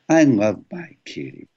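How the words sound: Kitty ends on the home note of the voice.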